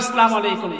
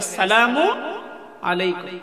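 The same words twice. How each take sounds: First: The greeting is pronounced in a stylized, altered way. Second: The greeting is pronounced fully and carefully, every sound clear. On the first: The speaker wants to sound educated or fashionable. The speaker calls it wrong. "সালাম যদি স্টাইল করে না দেই, একটু যদি পরিবর্তন করে না দেই" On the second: The greeting keeps its proper meaning of wishing peace. The speaker calls it right. "অথচ সালাম দিতে হবে কিভাবে?"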